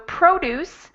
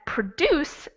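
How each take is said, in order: First: The stress is on the first syllable. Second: The stress is on the second syllable. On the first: "the stress is on the first syllable" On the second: "the stress is on the second syllable"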